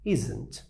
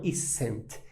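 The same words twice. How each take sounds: First: The consonant is a buzzing z sound. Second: The consonant is a hissing s sound. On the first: The speaker calls it right. "ele tem um som de Z" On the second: The speaker calls it wrong. "Não isn't"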